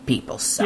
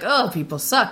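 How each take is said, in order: First: It is said flatly, with no joy. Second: It is said cheerfully, with a smile.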